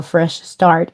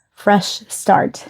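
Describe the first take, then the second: First: "fresh start" with a slushy lisp on the s of "start". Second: Said in the usual way. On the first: Real, not acted. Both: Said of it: "Sorry, the lisp there".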